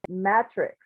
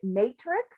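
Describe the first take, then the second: First: The first vowel is a short A sound. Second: The first vowel is a long A sound. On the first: "You were saying matrix" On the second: "I call it matrix. ... I always heard it as a long A"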